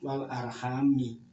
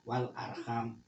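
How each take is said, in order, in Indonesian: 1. Kata itu berakhir dengan tambahan vokal i. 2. Kata itu berakhir dengan bunyi m murni. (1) "dibaca ger" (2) "mimnya di wakof, di sukun"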